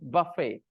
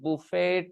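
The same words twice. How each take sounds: First: The final t is silent. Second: The final t is pronounced. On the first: The speaker calls it right. "we pronounce it buffet" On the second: The speaker calls it wrong. "they will say buffet"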